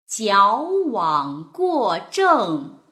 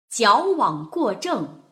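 First: It is read slowly with very clear articulation. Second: It is read faster with expressive feeling. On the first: "我们来一遍比较慢一点的，把发音过程一定要非常明显、清晰地表现出来" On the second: "第2 遍我们可以读得稍微快一些，带上自己对于词语的感受和感情色彩"

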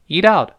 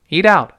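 No difference in how they are said.

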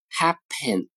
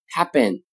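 First: The middle consonant is a clear, voiceless p. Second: The middle consonant sounds like a voiced b. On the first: "比如刚才说的单词 happen" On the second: "常常会读成 happen"

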